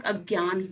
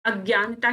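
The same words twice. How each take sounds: First: अज्ञान ending on a closed "n"; the short correct form अज्ञान. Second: अज्ञानता with an extra final "taa"; the mistaken long form अज्ञानता; wrong form. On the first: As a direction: stop अज्ञान at "gyaan", no "-taa". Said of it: "अज्ञान होता है". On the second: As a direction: add "-taa" at the end of अज्ञानता. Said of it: "अज्ञानता शब्द नहीं होता". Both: Shown as a demonstration.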